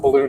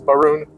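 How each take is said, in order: First: The word is said plainly with a clear L. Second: The word is said in a mock accent with R. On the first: "instead of balloon"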